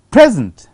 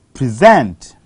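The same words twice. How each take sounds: First: "Present" as PREZ-ent, punched at the start; stress on first syllable. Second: "Present" as pre-ZENT, low start, ZENT punched; stress on second syllable. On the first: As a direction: hit PRES in "Present", noun form. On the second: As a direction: hit SENT in "Present", verb form. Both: Shown as a demonstration. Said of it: "the stress has shifted from".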